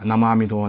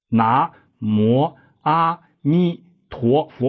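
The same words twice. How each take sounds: First: The phrase is said quickly and hurriedly. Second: The phrase is said slowly and fully. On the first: The speaker calls it wrong. "你别快" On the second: The speaker calls it right. "一定要把速度放下来"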